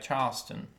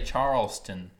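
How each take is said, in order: First: It is said with the local Charleston accent. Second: It is said without the local Charleston accent. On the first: "people down there, they say things like Charleston" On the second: "They don't say Charleston, which it pains me to even... articulate like that"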